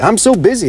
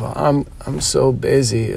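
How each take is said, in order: First: It sounds boastful and pleased, like bragging. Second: It sounds weary and complaining, like a victim. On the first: Busyness is a badge of importance. "some other people are proud of being busy" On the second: Busyness is a burden that holds them back. "some people say I'm busy as a victim of"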